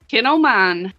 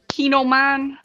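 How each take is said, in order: First: The first syllable has a short 'i' sound. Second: The first syllable has a long 'ee' sound. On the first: The speaker calls it right. "Like kinfolk of mine" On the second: The speaker calls it wrong. "Nick Molnar always says Keen o' mine"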